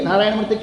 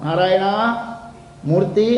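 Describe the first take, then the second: First: The two words are run together. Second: The two words are said separately. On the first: The speaker calls it wrong. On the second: The speaker calls it right.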